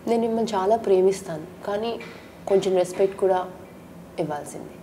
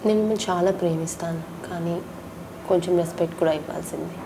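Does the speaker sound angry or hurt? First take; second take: angry; hurt. First: It is said in an angry tone. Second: It is said in a hurt, tearful tone.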